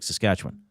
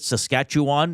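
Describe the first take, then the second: First: The word is said smoothly and casually. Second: Every syllable is spelled out with exaggerated care. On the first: The speaker calls it right. "just like" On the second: The speaker calls it wrong. "they overpronounce it"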